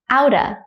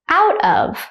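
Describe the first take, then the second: First: The words blend, ending in a short uh. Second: Both words are said fully and separately.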